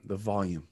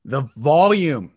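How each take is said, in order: First: 'volume' dropped low and soft; low volume. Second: 'volume' drawn out loud; loud volume. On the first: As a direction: turn "volume" right down. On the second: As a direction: swell big and slow on "volume". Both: Shown as a demonstration.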